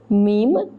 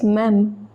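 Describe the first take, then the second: First: The word sounds like the English word meme. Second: The word has the open French vowel of même. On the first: The speaker calls it wrong. "don't uh, pronounce it as meme" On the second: The speaker calls it right. "it is même"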